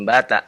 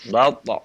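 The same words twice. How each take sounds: First: The t sound is light and thin. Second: The t sound is heavy and emphatic. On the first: The speaker calls it wrong. "bukan bata ya, bukan tipis ya" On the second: The speaker calls it right. "Fa'ahbata tebal"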